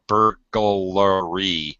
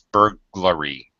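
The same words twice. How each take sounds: First: An extra vowel is inserted between G and L. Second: No vowel is inserted between G and L. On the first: The speaker calls it wrong. "We add a vowel sound between the G and L" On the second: The speaker calls it right. "It's burglary"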